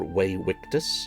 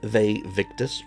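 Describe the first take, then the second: First: The name is pronounced in a Latin way. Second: The name is pronounced in an English way.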